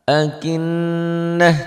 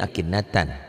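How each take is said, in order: First: The word ends in a soft h sound. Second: The word ends in a full 'tan' sound. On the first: The reading stops at this word. "Tak marbutoh jika dihentikan bunyinya berubah menjadi bunyi ha" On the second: The reading continues past this word. "Tapi kalau nggak dihentikan ini akinnatan"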